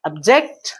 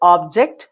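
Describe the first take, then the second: First: The stress is on the second syllable. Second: The stress is on the first syllable. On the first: It is used as a verb. "Second syllables మీద syllable మీద stress" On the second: It is used as a noun. "Object first syllable stress"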